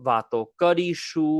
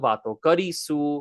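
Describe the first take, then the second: First: The last syllable has an 'sh' sound. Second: The last syllable has an 's' sound. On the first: "the sh consonant sound" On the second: "with an S sound and not an S H sound"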